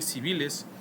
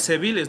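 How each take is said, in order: First: It is said with the standard vowel sounds. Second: It is said with a vulgar, dissimilated vowel. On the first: The speaker calls it right. "en vez de decir civiles" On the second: The speaker calls it wrong. "A veces decimos guardias civiles"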